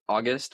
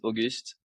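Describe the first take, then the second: First: The name is said like English August. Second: The name is said the French way, Auguste. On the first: This is the common everyday way people say it. "a lot of people say August, which is cool" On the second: This is the proper form of the name. "the proper way of saying it is Auguste"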